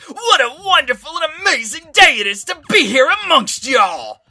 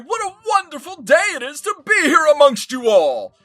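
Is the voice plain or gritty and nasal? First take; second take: gritty nasal; plain. First: It is said in a gritty, nasal Brooklyn voice. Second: It is said in a plain, clean voice.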